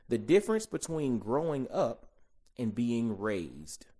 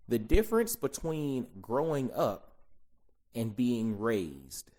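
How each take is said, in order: Both takes have the same delivery.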